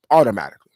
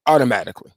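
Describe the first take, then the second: First: "automatically" whispered with no voice; whispered echo. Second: Said in the usual way. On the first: Acted. Repeats word then whispers it.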